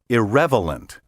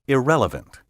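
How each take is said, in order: First: The V sound comes before the L sound. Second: The L sound comes before the V sound. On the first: The speaker calls it wrong. "be careful not to transpose the L and V and say" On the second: The speaker calls it right. "the proper pronunciation is"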